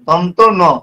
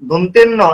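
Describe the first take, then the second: First: The name is said as two separate parts. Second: The name is run together as one word. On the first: The speaker calls it right. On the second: The speaker calls it wrong. "দন্তেন্ন এটা নয়"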